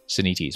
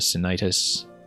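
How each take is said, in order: First: The word ends in a plain -ites sound. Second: The word ends in a disease-like -itis sound. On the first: The speaker calls it right. "Senites, maybe" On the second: The speaker calls it wrong. "It's not like some kind of disease called Sinitis"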